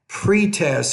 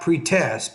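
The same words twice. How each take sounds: First: The stress is on the first syllable. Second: The stress is on the second syllable. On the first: The speaker calls it right. "put stress on that first syllable" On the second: The speaker calls it wrong. "not pre-test"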